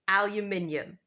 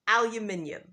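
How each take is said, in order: First: It is said in a British accent. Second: It is said in a British accent.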